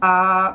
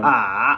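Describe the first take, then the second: First: The pitch stays high and level. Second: The pitch dips low, then rises. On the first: "There's the first tone" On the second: "there's the third tone"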